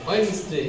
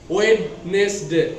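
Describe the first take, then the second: First: The D is silent in the word. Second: The D is sounded in the word. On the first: The speaker calls it right. "D is silent" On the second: The speaker calls it wrong. "Wednesday is wrong pronounce"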